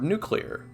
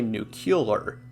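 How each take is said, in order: First: The word is said with two syllables before -lar. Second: An extra u vowel is inserted before -lar.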